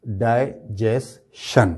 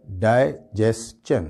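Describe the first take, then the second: First: "ڈائجیشن" slowly split as die... jes... shun; common mispronunciation. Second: "ڈائجیسچن" slowly as die... jes... chun; correct pronunciation. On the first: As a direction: end "ڈائجیشن" on a SH sound. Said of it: "تو وہ بولتے ہیں". ("ڈائجیشن" کے آخر میں "شن") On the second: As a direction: end "ڈائجیسچن" on CH. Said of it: "اس کا جو صحیح پروننسیشن ہے". ("ڈائجیسچن" کے آخر میں "چن") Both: Shown as a demonstration.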